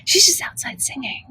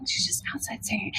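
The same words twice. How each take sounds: First: Hushed whispered aside; real whisper. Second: Barely audible whisper; softer whispered repeat; fading whisper. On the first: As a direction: whisper it like you might be overheard. Hushed aside about the neighbour. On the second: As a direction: let the whisper die almost to nothing. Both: Real, not acted.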